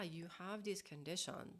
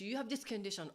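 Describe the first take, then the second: First: It sounds warm and sympathetic. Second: It sounds alarmed and overwhelmed. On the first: The listener's feelings are shared and validated. The speaker calls it right. "That would be more like compassion and validating and connecting" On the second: The situation feels like a burden to the speaker. The speaker calls it wrong. "not like, oh my gosh"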